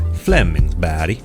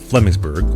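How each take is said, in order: First: The name is pronounced with Swedish sounds. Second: The name is pronounced with English sounds.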